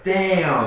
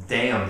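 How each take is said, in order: First: Higher, louder exclamation; punchy imitation of a little nephew; nephew copying a curse. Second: Said in the usual way. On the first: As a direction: blurt it out like a copycat kid. Mimics nephew repeating the word.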